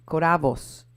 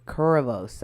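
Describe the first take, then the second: First: Koravos said as "ko-RAH-vos"; alternative pronunciation. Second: Koravos said as "KOR-uh-vohs"; alternative pronunciation. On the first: Cohost guessing at a woman's surname, Koravos as "ko-RAH-vos". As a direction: stress the middle of Koravos, with an open "ah". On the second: Cohost offering another guess at the surname, Koravos as "KOR-uh-vohs". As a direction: stress the first syllable of Koravos, middle reduced to "uh". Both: Shown as a demonstration. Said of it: "I don't know how you pronounce her name".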